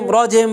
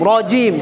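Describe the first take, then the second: First: The second vowel sounds like 'e'. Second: The second vowel sounds like 'ee'. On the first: The speaker calls it wrong. "কেউ যেন রজেম রজেম বা এভাবে না হয়" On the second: The speaker calls it right. "রজিম কি হবে?"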